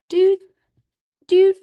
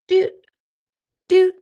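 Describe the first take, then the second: No difference in how they are said.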